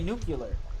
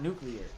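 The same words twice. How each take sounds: First: It is pronounced differently from its spelling. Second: It is pronounced the way it is spelled. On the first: This is the speaker's own habitual pronunciation. The speaker calls it wrong. "I say nuclear" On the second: This is the standard pronunciation the speaker avoids. The speaker calls it right. "not nuclear, like the word spells"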